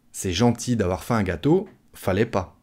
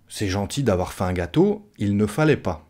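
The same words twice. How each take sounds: First: Casual "fallait pas", il and ne dropped; spoken French. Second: "ne fallait pas" with every word sounded; textbook negation. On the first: Thanking a guest for a cake, in casual spoken French. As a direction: say "fallait pas" as everyday speech, no ne. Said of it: "à l'oral, on va dire". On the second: Teacher gives the theory version to guests bringing cake, fully pronounced. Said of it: "Ça, c'est en théorie". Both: Shown as a demonstration.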